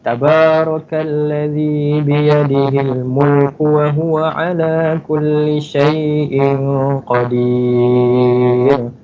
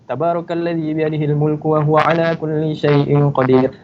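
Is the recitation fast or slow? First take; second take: slow; fast. First: It is recited slowly and in a relaxed way. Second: It is recited quickly at a brisk pace. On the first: The reader reflects carefully on the meaning. "kalau tahqiq ni kita baca slow-slow, santai-santai" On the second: The reader is revising memorised text. "Tapi kalau Al-Hadar ni dia baca laju"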